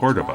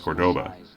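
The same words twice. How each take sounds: First: The stress is on the first syllable. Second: The stress is on the second syllable. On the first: The speaker calls it right. "with the emphasis on the first syllable, not the second" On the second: The speaker calls it wrong. "pronouncing this car's name as Cordoba"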